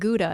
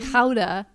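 First: The word has the common English pronunciation. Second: The word has the local Dutch pronunciation. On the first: The speaker calls it wrong. "we've been mispronouncing Gouda" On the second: The speaker calls it right. "It's actually Gouda"

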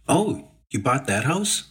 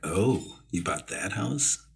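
First: It is said in a casual, friendly tone. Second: It is said in a spooky, ominous tone.

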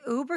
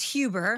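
First: The word begins with a vowel sound. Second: The word begins with an h sound. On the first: This is the usual pronunciation. The speaker calls it right. "Dad, an Uber?" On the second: This is how someone else mispronounces it. The speaker calls it wrong. "He says for Uber is which is H"

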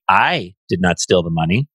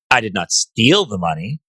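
First: The stress falls on the word 'I'. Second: The stress falls on the word 'steal'. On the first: Someone else took the money. "The money was stolen by someone else" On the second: The speaker took the money some other way. "I might have borrowed it for a little while"

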